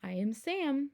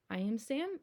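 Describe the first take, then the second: First: Said in the usual way. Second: Whisper. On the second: Shown as a demonstration. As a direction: breathe the line out in a whisper. Reading line again whispered.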